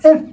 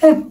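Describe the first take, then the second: Both takes have the same delivery.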